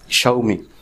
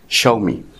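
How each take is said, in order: First: The name begins with a sh sound, sha. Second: The same.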